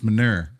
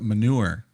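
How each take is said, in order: First: Manure is said with a Texas pronunciation. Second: Manure is said with standard pronunciation. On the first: "It's manure. ... That's how they say it in Texas" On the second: "they don't pronounce it manure"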